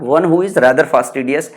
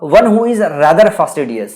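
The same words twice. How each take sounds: First: One who is rather fastidious, slowed and even; repeated for memorizing. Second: Very slow, word by word one who is rather fastidious; slow dictation. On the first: Teacher repeating the phrase so students memorize, slowed. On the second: Teacher dictating a phrase to memorize, very slow. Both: Shown as a demonstration. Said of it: "statement ऐसे ही याद करना पड़ेगा".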